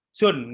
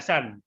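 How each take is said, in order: First: The vowel sounds like 'oo'. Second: The vowel sounds like 'ah'. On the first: The speaker calls it right. "ini Sun" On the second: The speaker calls it wrong. "nggak boleh dibaca San"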